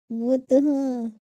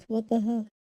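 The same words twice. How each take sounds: First: Slow and louder, each word stretched; drawn-out. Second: Said in the usual way. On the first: Shown as a demonstration. Streamer dragging out "What the hell?" slowly and louder in disbelief. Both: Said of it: "repeats the same line".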